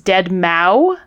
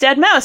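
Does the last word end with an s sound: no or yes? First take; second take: no; yes. First: The last word ends without an s sound. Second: The last word ends with an s sound. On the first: The speaker calls it wrong. "Marciano rang in and said" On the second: The speaker calls it right. "corrected the pronunciation to [name]"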